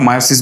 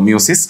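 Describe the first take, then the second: First: The first syllable sounds like 'my'. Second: The first syllable sounds like 'mee'. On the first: This is the pronunciation in newer books. "নতুন বইগুলোতে এটার উচ্চারণটা মায়োসিস বলছে" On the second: This is the older pronunciation. "পুরাতন উচ্চারণটা কিন্তু আসলে ছিল মিওসিস"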